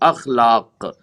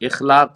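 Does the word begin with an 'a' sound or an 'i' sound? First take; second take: a sound; i sound. First: The word begins with an 'a' vowel. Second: The word begins with an 'i' vowel. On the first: The speaker calls it right. "अखलाक सही लफ्ज है" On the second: The speaker calls it wrong. "इखलाक दुरुस्त नहीं है"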